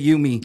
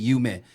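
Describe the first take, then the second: First: The name ends like the word 'me'. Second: The name does not end like 'me'. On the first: It evokes 'you and me'. "it's like you and me. ... we just pronounce it Yumi" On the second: This is the original Japanese word for dream. "they pronounce it Yume"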